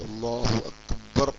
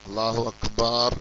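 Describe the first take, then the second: First: The last vowel of Akbar is kept short. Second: The last vowel of Akbar is drawn out long. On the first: This is the way the Prophet taught. The speaker calls it right. "നബി സല്ലല്ലാഹു അലൈഹി വസല്ലമ പഠിപ്പിച്ച പോലെ" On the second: The sound is stretched where it is not needed. The speaker calls it wrong. "ആവശ്യമില്ലാത്ത നീട്ടുക"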